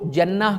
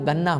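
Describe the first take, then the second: First: It begins with a j sound, as in standard Arabic. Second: It begins with a hard g, Egyptian style.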